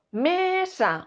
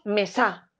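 First: "mesa" with ME drawn out; MÉÉ-sa, slow; stress on first syllable. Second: "mesa" wrongly stressed on SA; stress on last syllable. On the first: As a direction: stretch and hit ME in "mesa". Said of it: "¿Qué decimos?". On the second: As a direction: land hard on SA in "mesa". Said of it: "o decimos mesa". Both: Shown as a demonstration.

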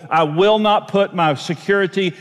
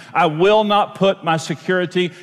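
Both takes have the same delivery.

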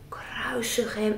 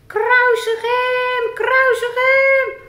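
First: Said in the usual way. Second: High, slow, loud mock crowd yell; crowd shout. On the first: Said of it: "Wat riepen ze dan". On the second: Puppet Rick acting out the crowd's loud angry shout. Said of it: "Wat riepen ze dan, Rick?".

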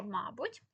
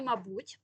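First: «мабуть» stressed on the first syllable, МА-буть. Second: «мабуть» stressed on the last syllable, ма-БУТЬ; stress on second syllable. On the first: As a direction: hit the МА in «мабуть». (наголос на перший склад: «мАбуть») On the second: (наголос на другий склад: «мабУть») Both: Shown as a demonstration. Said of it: "наголос подвійний".

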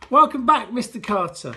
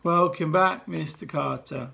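First: Unenthusiastic chorus. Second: Mumbled, dragging welcome; children grudgingly greeting head teacher; flat reluctant chorus. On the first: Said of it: "not very together or enthusiastic way". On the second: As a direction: say it like you don't mean it. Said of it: "So it was more of a". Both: Acted.

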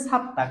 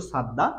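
First: সাত্তা with tense, unvoiced double t; correct pronunciation. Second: সাদ্দা with voiced double d; spelling-based pronunciation. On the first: Teacher correcting the written form, correct pronunciation. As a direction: say সাত্তা as "sat-ta". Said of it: "উচ্চারণ হবে". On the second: Teacher repeating the written form for learners, spelling-based pronunciation. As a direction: say সাদ্দা as spelt, "sad-da". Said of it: "লেখা আছে স্পষ্ট". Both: Shown as a demonstration.

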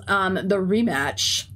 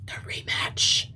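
First: Said in the usual way. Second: Slow, ominous whisper of rematch; dramatic whisper. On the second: Acted. Streamer whispers the upcoming rematch to chat, ominous. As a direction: breathe it like a threat.

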